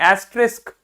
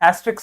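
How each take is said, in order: First: The word ends with an 'sk' sound. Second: The word ends with a 'ks' sound. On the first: The speaker calls it right. "नहीं एस्ट्रिस्क" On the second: The speaker calls it wrong. "एस्ट्रिक्स नहीं"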